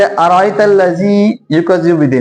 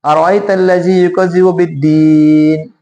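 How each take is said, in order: First: अराइतल लज़ी युकज़िबु बिद्दीन with only two counts on दीन; non-stopping recitation. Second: अराइतल लज़ी युकज़िबु बिद्दीन with a very long, level दीन; long stopping recitation. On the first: Teacher shows reading on, बिद्दीन with short stretch. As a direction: move through बिद्दीन without a long hold. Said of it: "अगर नहीं रुक रहे हैं". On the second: Teacher shows stopping at verse end, बिद्दीन held very long. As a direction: recite steadily, then sustain दी in बिद्दीन. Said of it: "छह count भी ले सकते हैं". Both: Shown as a demonstration.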